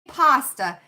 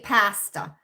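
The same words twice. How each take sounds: First: The word is said with an American pronunciation. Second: The word is said with a Canadian pronunciation. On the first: "They don't say pasta" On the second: "they say pasta up in crazy Canada"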